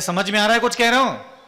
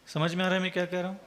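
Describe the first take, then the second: First: It is said in an alarmed, startling tone. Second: It is said in a calm, ordinary tone.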